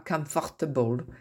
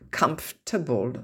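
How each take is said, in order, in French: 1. La syllabe 'for' du milieu est entièrement prononcée. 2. La syllabe 'for' du milieu est omise. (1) "on ne dit pas comfortable" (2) "le OR en somme ne se prononce pas"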